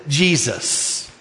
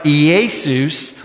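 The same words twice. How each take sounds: First: Jesus said as plain English gee-zus. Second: Jesus said as yay-soos, a Greek-style sound. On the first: Preacher shows how English speakers say the name, gee-zus. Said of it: "we say Joshua and Jesus like this". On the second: Preacher shows how the Greek New Testament says the name, yay-soos. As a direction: say Jesus like yay-soos, not gee-zus. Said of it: "When you take Joshua or Yeshua into the Greek New Testament, it sounds like". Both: Shown as a demonstration.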